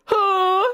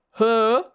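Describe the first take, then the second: First: Loud, high held mock gasp; hammed-up drawn-out "huh"; gasp for breath. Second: Put-on short, loud British-accented "huh"; British gasp. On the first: Boys fall out gasping for breath, hammed-up high gasp. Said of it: "gasped for breath". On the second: Draco gasps for breath, lightly put-on British accent. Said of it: "But British, said Draco". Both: A narrator's reading.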